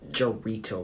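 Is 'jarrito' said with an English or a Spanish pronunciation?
English. It is said with an English-style pronunciation. The speaker calls it wrong. "I don't say like jarrito"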